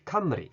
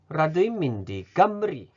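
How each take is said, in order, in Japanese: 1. この言葉はクの音で始まります。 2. この言葉はグの音で始まります。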